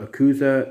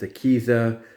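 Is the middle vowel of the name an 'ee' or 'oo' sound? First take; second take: oo; ee. First: The middle vowel sounds like 'oo'. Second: The middle vowel sounds like 'ee'. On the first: The speaker calls it wrong. "I called her Akuza" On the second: The speaker calls it right. "It's Akiza"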